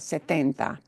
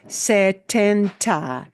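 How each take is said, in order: First: The T is soft with no puff of air. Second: The T has a strong puff of air. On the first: "that T is a softer T sound" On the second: "in English, we would pronounce this"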